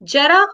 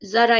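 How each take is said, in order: First: It starts with a j sound. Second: It starts with a z sound. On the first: It means old age. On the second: It means a little.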